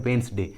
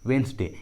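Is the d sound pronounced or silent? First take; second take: silent; silent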